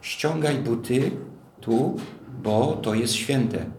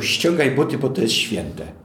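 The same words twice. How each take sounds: First: Slow, weighty divine order, stress on ściągaj; God's solemn warning to Moses; slow solemn command. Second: A stranger's bossy demand; sharp command. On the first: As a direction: lay it down gravely, word by word. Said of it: "co czytamy?". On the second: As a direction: snap it at someone out of nowhere. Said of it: "ktoś by ci powiedział". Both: Retold or imitated.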